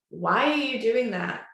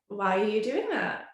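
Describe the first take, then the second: First: The question sounds sharp and accusing. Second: The question sounds warm and curious. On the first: The behaviour is being criticised as wrong. The speaker calls it wrong. "not asking them in a way of like" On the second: The asker genuinely wants to understand. The speaker calls it right. "I'm curious"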